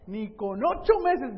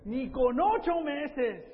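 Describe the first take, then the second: First: "Ni con ocho meses" louder, slow, stress on "meses"; emphatic. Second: "Ni con ocho meses" very slow, high, stress on "ocho"; drawn out. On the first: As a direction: hammer out "meses" slowly. ("Ni con ocho meses" fuerte y lento, acento en "meses") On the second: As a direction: stretch "ocho" out slowly, up high. ("Ni con ocho meses" muy lento, acento en "ocho") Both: Shown as a demonstration.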